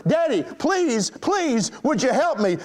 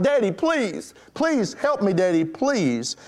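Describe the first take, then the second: First: High, drawn-out plea, no real shouting; retold frightened yell. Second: Retold crying out. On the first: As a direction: imitate a scared child begging urgently. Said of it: "frightened girl yelled even louder". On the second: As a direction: imitate a frightened girl pleading with her daddy. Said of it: "caused the girl to cry out".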